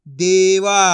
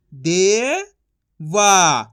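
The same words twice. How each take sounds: First: Said in the usual way. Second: दे rising long, pause, वा; syllable by syllable. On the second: Shown as a demonstration. Teacher sounding out for learners, syllable by syllable. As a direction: split देवा into two drawn-out sounds. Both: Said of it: "तो मिलके बन जाएगा".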